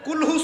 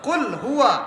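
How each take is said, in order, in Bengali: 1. 'huwa' ছোট করে বলা হয়, 'qulhu' হিসেবে একসাথে জুড়ে যায়। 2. 'huwa' পুরোপুরি উচ্চারণ করা হয়, 'qul' থেকে আলাদা থাকে। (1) "বলছে কুলহু সূরা" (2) "কুল একটা শব্দ, হুয়া আলাদা শব্দ।"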